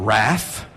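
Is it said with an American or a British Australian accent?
American. It is said with an American pronunciation.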